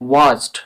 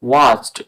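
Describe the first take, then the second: Both takes have the same delivery.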